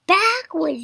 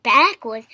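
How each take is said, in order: First: High, loud command; yelled. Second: Frazzled. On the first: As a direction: yell out the next move. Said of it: "yelled Piggy". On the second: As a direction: echo it, feeling frazzled. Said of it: "he was feeling frazzled". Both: A narrator's reading.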